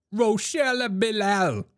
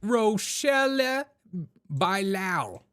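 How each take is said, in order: First: Higher, slow "Rochelle Bilal", said bih-LAL; showy name pronunciation. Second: Very slow, high "Rochelle", pause, then "Bilal" as bye-LAO; mock-Spanish name pronunciation. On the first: Pretend. Host announcing the sheriff's name, "Rochelle Bilal" in a showy, high stretch. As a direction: draw out "Rochelle Bilal" high, last syllable rhyming with pal. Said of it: "her name is". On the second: Host playing with the sheriff's name, "Bilal" said slowly as Spanish-sounding bye-LAO. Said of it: "it sounds like a Spanish name".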